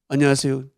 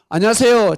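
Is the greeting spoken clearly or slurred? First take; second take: slurred; clearly. First: The greeting is slurred and indistinct. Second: The greeting is spoken clearly and smoothly.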